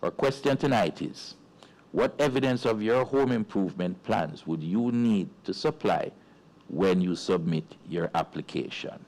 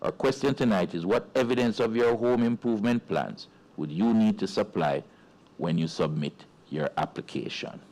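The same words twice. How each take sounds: First: It is said at a normal pace. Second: It is said a little more quickly.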